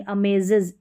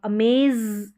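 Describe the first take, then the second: First: अमेजेस ending in a separate "iz" syllable; corrected amazes. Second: अमेज with one long buzzing z at the end; mispronounced amazes. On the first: Teacher giving learners the right ending, corrected pronunciation. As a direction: say अमेजेस as "a-may-ziz". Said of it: "इज sound आपको निकालना पड़ेगा". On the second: Teacher showing what learners should avoid, mispronounced. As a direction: say अमेज with the z held and no "iz" syllable. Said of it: "ऐसे नहीं बोलेंगे". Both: Shown as a demonstration.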